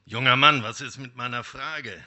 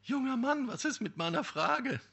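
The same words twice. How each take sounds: First: Much louder call at normal pitch, then settling; the wolf calls out to him. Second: Much higher woman's voice calling out; young woman calling. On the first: Wolf calls to the young man leaving the forest, loud. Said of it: "rief der Wolf ihm zu". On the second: Young woman calls out to the passing man, high-pitched. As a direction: call after him in a high voice. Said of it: "rief sie". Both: Acted.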